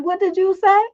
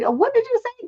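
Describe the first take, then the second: First: Higher, demanding mock challenge; retold stern challenge to a cussing kid; sharp confrontation. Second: Much higher, disbelieving retold question; incredulous. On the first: Mother confronting a cussing boy downstairs, stern challenge. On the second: Mother hearing the boy cuss again, mock incredulity. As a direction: ask as if doubting your own ears. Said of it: "did I really hear what I thought I heard".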